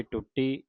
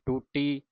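First: ਟੁੱਟੀ with short u and doubled t; ਟੁੱਟੀ, quick first vowel. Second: ਟੂਟੀ with a long oo; ਟੂਟੀ, drawn first vowel, single t. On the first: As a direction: say ਟੁੱਟੀ as tut-tee. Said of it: "ਔਂਕੜ ਦੇ ਨਾਲ ਪੜ੍ਹਿਆ ਸੀ". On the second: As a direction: say ਟੂਟੀ as too-tee. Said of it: "ਦਰੈਂਕੜਾਂ ਦੇ ਨਾਲ ਉਚਾਰਨ ਕਰਨਾ ਹੈ". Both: Shown as a demonstration.

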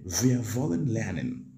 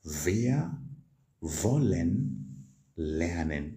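First: Said in the usual way. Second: Slow, careful German model line; slow model sentence. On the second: Shown as a demonstration. Teacher slowly modelling the German sentence for students. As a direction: draw out wollen lernen slowly. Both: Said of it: "How do you say that?".

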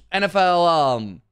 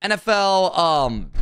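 No difference in how they are said.

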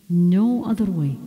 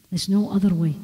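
First: "No" drawn out and leaned on; insistent repeat with a long, weighted "No"; stress on No. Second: Said in the usual way. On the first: Real, not acted. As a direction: repeat it firmly, stretching the word "No". Emphatic repeat of the line before.

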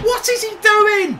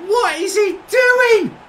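First: Loud exasperated question; angry. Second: Slower, shouting each word; slow angry shout. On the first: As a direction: demand an answer in outrage. Disbelief at the player. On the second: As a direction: drag it out in a furious shout. Repeat, louder and slower. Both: Real, not acted.

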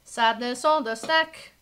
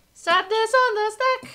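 First: Said in the usual way. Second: Much higher, louder sing-song Sadness on the stack. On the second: Real, not acted. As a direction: croon "Sadness on the stack" high and rising.

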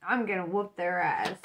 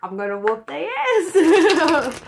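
First: Said in the usual way. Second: Loud, slow, laughing threat. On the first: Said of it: "They will not take advantage of you". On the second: Real, not acted. Reader laughing as she threatens the user. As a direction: threaten them while cracking up. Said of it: "I'm mad".

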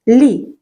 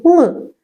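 First: Лі said soft and palatal, like "lee". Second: Л said as a dark, hard L. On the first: Teacher quizzes children on ліс, soft L in лі. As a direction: soften the L in лі. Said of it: "Так, м'який". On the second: Teacher quizzes children on лис, hard L in Л. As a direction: keep Л unsoftened, no y-glide. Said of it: "Так, твердий". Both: Shown as a demonstration.

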